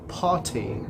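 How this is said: British accent, with a muffled r and crisp t. "no inglês britânico"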